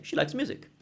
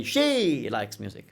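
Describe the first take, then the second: First: Said in the usual way. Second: Drawn-out, heavily stressed "She". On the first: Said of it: "I'm just saying". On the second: Shown as a demonstration. Teacher showing needless contrast, stress on "She". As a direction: stretch "She" right out, then drop away. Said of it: "I don't need to say".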